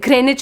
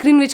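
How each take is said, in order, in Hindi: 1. बीच की 'w' ध्वनि मौन रहती है। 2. बीच की 'w' ध्वनि बोली जाती है। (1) "कुछ-कुछ वर्ड साइलेंट होते हैं" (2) "मैं ग्रीनविच ग्रीनविच करती रहती थी"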